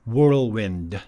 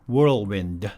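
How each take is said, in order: Both takes have the same delivery.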